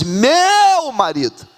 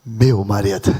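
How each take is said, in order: First: High, long-swelling "meu"; adoring cry. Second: Very low, deep "meu marido"; savoured intonation. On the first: Acted. Preacher contrasting the wife's words with insults, adoring cry. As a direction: let "meu" soar, then fall on "marido". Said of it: "Ela diz". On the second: Shown as a demonstration. Preacher modelling it for every wife present, savoured low intonation. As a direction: sink the pitch and say it with weight. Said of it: "com essa entonação".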